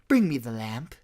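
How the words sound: It sounds casual and laid-back. "The newer movie is he's more hipster Jafar"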